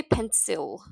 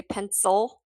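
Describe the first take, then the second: First: PENCIL as pen-SILL, clear short i; spelled-out vowel. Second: PENCIL as PEN-sul, lazy second vowel; schwa ending. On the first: Teacher showing what we don't say, pencil as pen-sill. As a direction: give pencil a full "sill" ending. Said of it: "We don't say pencil". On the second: Teacher showing what we say, pencil as pen-sul. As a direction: reduce the i in pencil to "uh". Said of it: "We say pencil". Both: Shown as a demonstration.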